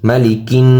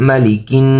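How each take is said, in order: Both takes have the same delivery.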